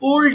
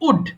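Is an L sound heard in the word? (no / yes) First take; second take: yes; no. First: An L sound is pronounced before the final D. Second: No L sound is pronounced before the final D. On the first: The speaker calls it wrong. "অনেকে ভুল করে এটাকে উল্ড বলে ফেলে" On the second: The speaker calls it right. "এখানে উচ্চারণ হবে simply উড"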